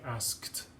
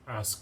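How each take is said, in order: First: The ending sounds like a T. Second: The ending sounds like a D. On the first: The speaker calls it right. "it'll sound like a T" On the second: The speaker calls it wrong. "You would never say"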